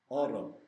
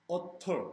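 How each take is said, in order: First: The middle consonant is a soft R-like flap. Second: The middle consonant is a clear hard T. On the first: The speaker calls it right. "T를 R로 발음해" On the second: The speaker calls it wrong. "이렇게 안 한다고"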